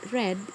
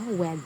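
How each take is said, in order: First: The word begins with an R sound. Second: The word begins with a W sound. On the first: The speaker calls it right. "instead of red" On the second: The speaker calls it wrong. "they pronounce it as a wed"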